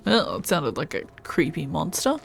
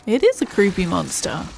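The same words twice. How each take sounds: First: Said in the usual way. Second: Is pressed, falling at the end; stress on is. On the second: Real, not acted. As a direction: lean on is to confirm.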